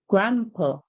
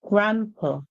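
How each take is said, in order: No difference in how they are said.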